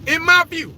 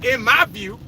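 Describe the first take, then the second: First: In my view, pushed higher and a bit louder; insisting, in my view punched up; emphatic repeat. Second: Said in the usual way. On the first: Real, not acted. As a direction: lean hard on the repeat of in my view. Repeats phrase, second time emphatic.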